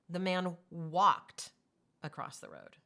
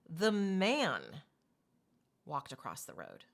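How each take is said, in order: First: The word "walked" carries the main stress. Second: The word "man" carries the main stress. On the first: He should have moved some other way, like running. "he did? He should have ran" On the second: Someone other than the man should have crossed. "who should have crossed the road? Why? The man wasn't supposed to? Was a woman supposed to?"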